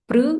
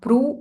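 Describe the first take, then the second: First: The syllable ends with an i-like vowel. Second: The syllable ends with a u vowel. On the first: The speaker calls it right. "This is pr" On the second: The speaker calls it wrong. "not pru"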